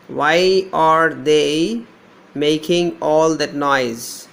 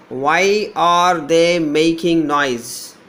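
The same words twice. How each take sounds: First: Very slow, stretching out each word; slow dictation. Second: Said in the usual way. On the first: Shown as a demonstration. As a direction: draw the words out for students to hear. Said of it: "I is there". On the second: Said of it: "the second one is".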